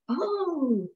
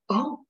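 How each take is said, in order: First: It sounds happy. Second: It sounds shocked.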